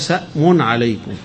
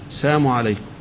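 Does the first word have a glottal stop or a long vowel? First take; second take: glottal stop; long vowel. First: The first word has a glottal stop in it. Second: The first word has a long vowel, no stop.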